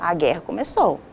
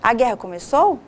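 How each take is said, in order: First: It is said as a certain statement. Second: It is said as a questioning question.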